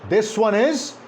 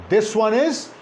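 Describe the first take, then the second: Both takes have the same delivery.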